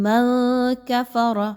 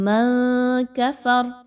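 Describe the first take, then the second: The two takes are said the same way.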